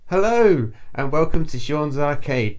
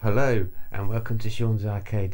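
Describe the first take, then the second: First: It is said loudly, shouting. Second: It is said at a quieter volume.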